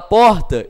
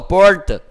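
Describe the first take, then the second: First: The R is said in the usual Brazilian way. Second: The R is said the interior São Paulo way. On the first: "em vez de falar porta" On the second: "o R deles é diferente"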